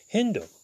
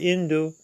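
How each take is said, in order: First: The word begins with an h sound. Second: The word begins directly with a vowel. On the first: "if one uses the H or not" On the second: "if one uses the H or not"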